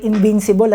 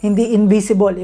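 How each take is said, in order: First: "Invincible" said "in-VIN-si-bol" with a clear v and n; "Invincible" with a crisp v and the n kept before "ci". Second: "invisible" said "in-bi-si-bol" with no n before "si"; contrast invisible. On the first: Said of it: "Ibig sabihin parang hindi ka tatablan". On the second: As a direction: set "invisible" against the word before, in-bi-si-bol. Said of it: "Iba, invisible, hindi nakikita eh". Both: Shown as a demonstration.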